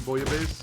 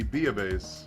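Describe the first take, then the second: First: The first syllable sounds like 'boy-ah'. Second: The first syllable sounds like 'bee-ah'. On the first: This is the common American way of saying it. "the American bastardization" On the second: This is the French way of saying it. "the French pronunciation"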